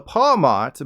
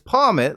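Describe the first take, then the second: First: The ending does not sound like marmot. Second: The ending sounds like marmot. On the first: "I always call this little fella Pawmot" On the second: "the book clearly says it's Pawmot, like Marmot"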